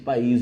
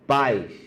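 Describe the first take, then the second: First: The I is strong and carries the stress. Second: The A is strong and the I is weak. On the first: It means country. "O I fez vibrar suas cordas vocais" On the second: It means parents. "esse I é quase uma vogal... ele é fraco, ele não tem força de vogal"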